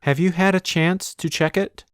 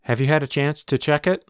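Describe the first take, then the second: First: The sentence is said at a normal pace. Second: The sentence is said quickly and run together.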